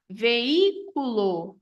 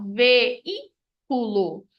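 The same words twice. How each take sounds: First: Veículo said slowly as ve-í-cu-lo, the í on its own; teacher stretches veículo, í set apart; syllables pulled apart. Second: Veículo drawn out even more, ve-í-cu-lo with í separate; really slow down veículo so the í stands alone; extra slow hiatus demo. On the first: Teacher shows students the hiatus, slow and syllabified. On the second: Teacher repeats the word for the class, very drawn out. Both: Shown as a demonstration. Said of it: "essa separação no som do I".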